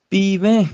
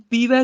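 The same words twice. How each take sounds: First: ਪੀਵੈ said loud with a nasal "vain"; nasal plural ending. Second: ਪੀਵੈ with a quick oral "vai"; wrong pronunciation demo. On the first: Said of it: "ਨਾਸਕੀ ਉਚਾਰਨ ਹੋਏਗਾ". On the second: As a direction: say ਪੀਵੈ without nasalising the ending. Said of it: "ਇਹਨੂੰ ਪੀਵੈ ਨਹੀਂ ਬੋਲਣਾ". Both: Shown as a demonstration.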